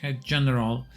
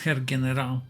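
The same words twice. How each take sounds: First: It is pronounced with English sounds. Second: It is pronounced with German sounds. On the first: "would be English" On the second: "I'm intentionally pronouncing this"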